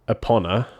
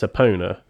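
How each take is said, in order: First: The ending sounds like the word honor. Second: The ending sounds like the word owner. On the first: The speaker calls it wrong. "I don't know why people are saying Honor because it's not Epona" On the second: The speaker calls it right. "It's Epona. So it's the Owner series in my head"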